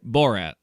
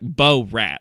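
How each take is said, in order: First: The name is said smoothly as one word. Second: The name is split into two separate parts. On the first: The speaker calls it right. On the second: The speaker calls it wrong.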